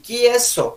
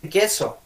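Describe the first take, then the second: First: "queso" lento, dicho "quieso"; diptongo añadido. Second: Said in the usual way. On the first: Retold or imitated. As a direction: mete una i antes de la e de "queso". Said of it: "dicen queso". ("queso" como "qui-eso") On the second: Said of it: "No dicen queso".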